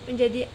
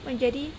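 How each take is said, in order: No difference in how they are said.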